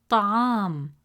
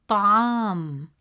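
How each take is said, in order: No difference in how they are said.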